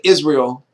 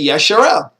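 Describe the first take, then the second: First: The name begins with an 'iz' sound. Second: The name begins with a 'yash' sound. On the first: The speaker calls it wrong. "I wouldn't say Israel" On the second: The speaker calls it right. "I would say Yesharel"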